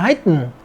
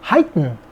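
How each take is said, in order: First: The word is said in an American accent. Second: The same.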